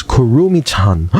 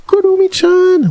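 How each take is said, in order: First: Said in the usual way. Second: Gasp, then very high delighted squeal; high-pitched, thrilled exclamation; excited squeal. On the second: Real, not acted. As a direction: squeal the name like a fan. Recognizes the name, gasps, exclaims.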